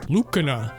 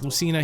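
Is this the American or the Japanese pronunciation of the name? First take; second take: Japanese; American. First: The name is said the Japanese way. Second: The name is said the American way. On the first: "in Japan it's Lucina" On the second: "pronounced Lucina here in America officially"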